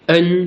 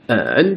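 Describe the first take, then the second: First: It is said with the first tone. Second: It is said with the third tone. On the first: "premier ton" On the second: "troisième ton"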